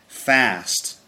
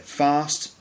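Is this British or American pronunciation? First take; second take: American; British. First: The vowel is a short flat 'a' sound. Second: The vowel is a long open 'ah' sound. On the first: "they say fast" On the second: "so we'd say fast"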